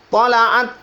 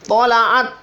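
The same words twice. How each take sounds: The two takes are said the same way.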